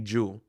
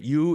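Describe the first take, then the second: First: The word begins with a J sound. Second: The word begins with a Y sound. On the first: "they would change the Y to a J" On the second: "instead of you"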